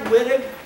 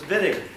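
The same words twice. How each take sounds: First: The name is read as English spelling suggests. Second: The name is said with German pronunciation. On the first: The speaker calls it wrong. "It looks like Wittig" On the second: The speaker calls it right. "the Germans have us pronounce it as Wittig"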